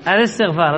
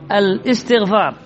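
First: The vowel joins smoothly with no glottal stop. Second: A glottal stop is heard before the vowel. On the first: The speaker calls it right. "الهمزة ما تنطق" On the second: The speaker calls it wrong. "لذلك بعضهم يقرأ الاستغفار"

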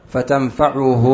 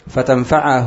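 First: The vowel after the 'ayn is 'u'. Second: The vowel after the 'ayn is 'a'. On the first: "بضم العين، هذه القراءة الثانية" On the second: "بفتح العين، هذه القراءة الأولى"

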